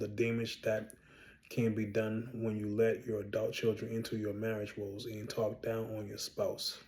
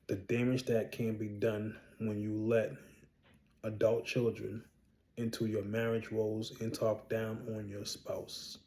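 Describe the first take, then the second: First: It is said at a normal pace. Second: It is said more slowly and clearly.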